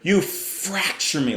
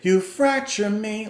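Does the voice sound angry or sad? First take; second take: angry; sad. First: It sounds angry, as if through gritted teeth. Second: It sounds sad and hopeless, without anger. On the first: The singer feels a hint of anger within the pain. "Like he's he's gritting his teeth as he says that" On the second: The singer feels only despair. "Like, that's sad. Sure, that's despair"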